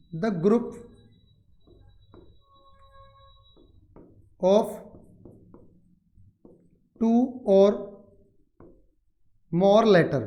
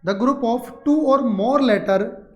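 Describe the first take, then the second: First: Word by word with very long pauses; dictation. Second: The phrase joined up, slow and deliberate; slow read-back. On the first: Teacher gives students the word definition, slow dictation. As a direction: dictate slowly, leaving time to write. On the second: Teacher repeats the definition for students, slow connected reading. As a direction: read it back slowly in one connected run. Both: Shown as a demonstration.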